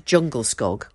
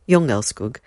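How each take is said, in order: First: It is read as English spelling suggests. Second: It is pronounced the Swedish way. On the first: This is how the name looks in writing. "Spelt de Jungelskog" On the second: This is how the name is actually said. "I did have a little look earlier at the pronunciation, and it's Jungelskog"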